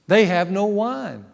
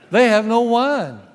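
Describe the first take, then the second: First: It is said as a plain, neutral statement. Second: It is said as a pointed, demanding hint.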